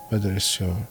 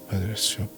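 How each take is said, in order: Both takes have the same delivery.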